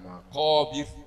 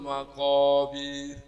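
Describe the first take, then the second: First: The final syllable's vowel is kept short. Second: The final syllable's vowel is drawn out long. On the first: The speaker calls it right. "jangan dipanjangkan" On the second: The speaker calls it wrong. "birnya dipanjangkan. ... Salah"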